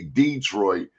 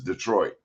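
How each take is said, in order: First: The stress is on the first syllable. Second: The stress is on the second syllable. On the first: This is how one community says the name. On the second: This is how most other people say the name. "everybody else says Detroit"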